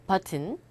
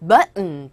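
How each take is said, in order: First: BUTTON with the T clearly released; pronounced T. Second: BUTTON with the T caught, released as N; swallowed T. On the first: Teacher giving the alternative form, BUTTON with a clear T. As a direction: say BUTTON as but-tun, T sounded. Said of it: "버튼이라고 하잖아요". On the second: Teacher recapping the native form, BUTTON without audible T. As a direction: cut BUTTON short, hum the ending. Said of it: "버튼이라고 원어민들은 발음을 안 하고요". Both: Shown as a demonstration.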